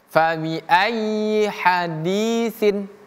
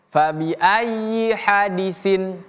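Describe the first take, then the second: First: The vowel in di is held long. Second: The vowel in di is short. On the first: The speaker calls it right. "dua harokat dia" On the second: The speaker calls it wrong. "Tidak boleh kita baca"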